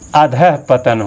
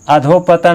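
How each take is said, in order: First: The word begins with 'adhah' before 'patan'. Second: The word begins with 'adho' before 'patan'. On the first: The speaker calls it right. "अधः पतन होता है" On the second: The speaker calls it wrong. "अधोपतन आपका गलत है"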